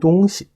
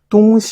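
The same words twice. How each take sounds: First: The second syllable is weak and toneless. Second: The second syllable has a full high level tone. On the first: It means a thing. "동시 하는 식으로 시를 약하게 발음합니다" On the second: It means east and west. "시자를 제일성어로 발음하는데요"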